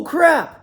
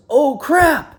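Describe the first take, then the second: First: A high, loud "crap" that breaks off; the hauler startled as he loses the road; imitated sudden alarm. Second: A sharp, higher, louder "Oh, crap" as the truck slides; playing the startled hauler mid-crash; imitated sudden alarm. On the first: Retelling hauler's crash exclamation again.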